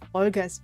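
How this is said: The name is pronounced with a German sound.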